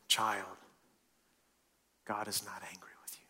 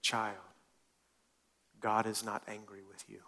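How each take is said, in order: First: Soft whispered reassurance from God; tender whisper. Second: Gentle repetition. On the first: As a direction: breathe it like comfort to a child. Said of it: "I'm gonna say this a different way". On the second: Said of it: "say this a different way". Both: Shown as a demonstration.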